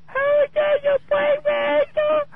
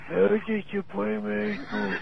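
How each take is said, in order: First: It is said in a high-pitched voice. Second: It is said in an old person's voice.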